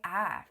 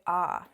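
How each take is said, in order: First: "ah" as a flat short a, /æ/; "ah" said like the a in "cat". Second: "ah" as a broad open /ɑ/; "ah" said like the a in "father". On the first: Students imitating how she should say her name. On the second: Students imitating how she actually says it. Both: Retold or imitated. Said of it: "they'll be like".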